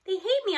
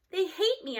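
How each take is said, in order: First: Exclaim. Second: Mild exclaim. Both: A narrator's reading. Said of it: "I exclaim".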